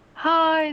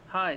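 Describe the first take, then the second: First: The voice is pitched very high. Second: The voice is at its normal pitch. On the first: "this is my really high-pitched voice" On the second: "this is my uh my regular voice"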